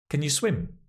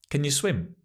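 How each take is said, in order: Both takes have the same delivery.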